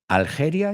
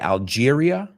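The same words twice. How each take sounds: First: It is said with a Spanish pronunciation. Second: It is said with an English pronunciation. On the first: This is how Spanish speakers say it. "you say?" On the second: This is how English speakers say it. "We say Algeria"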